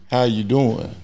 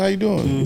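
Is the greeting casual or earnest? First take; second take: earnest; casual. First: It sounds like a sincere, earnest question. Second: It sounds like a quick, casual greeting.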